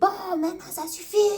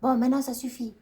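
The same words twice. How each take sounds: First: It is said with violent, angry energy. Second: It is said calmly, without aggression.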